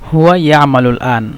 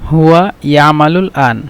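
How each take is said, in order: Both takes have the same delivery.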